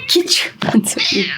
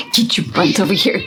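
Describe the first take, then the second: First: Whispered coax; hushed repeat to lure the cat. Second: Said in the usual way. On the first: Real, not acted. Coaxing the cat.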